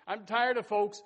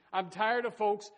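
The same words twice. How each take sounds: The two takes are said the same way.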